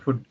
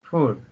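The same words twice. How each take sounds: First: The vowel is a short oo sound. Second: The vowel is a long oo sound. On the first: The speaker calls it wrong. "Generally we pronounce this food" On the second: The speaker calls it right. "its correct pronunciation is food"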